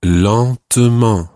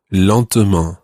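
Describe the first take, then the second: First: "lentement" stretched out very slowly and louder; slow careful teacher's "lentement"; slow model word. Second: Said in the usual way. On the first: Shown as a demonstration. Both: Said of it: "the word for slowly is".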